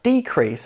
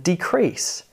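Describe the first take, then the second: First: Decrease as a noun, DE strong; DEcrease, second syllable lighter; stress on first syllable. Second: Decrease as a verb, CREASE strong; deCREASE, light first syllable; stress on second syllable. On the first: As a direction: hit DE in decrease. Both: Shown as a demonstration. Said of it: "Can you hear the difference?".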